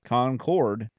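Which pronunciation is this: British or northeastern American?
British. It is pronounced the British English way. "which is the English, like the Queen's English version"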